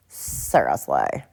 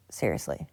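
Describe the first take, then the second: First: Drawn-out funny voice. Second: Said in the usual way. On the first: Pretend.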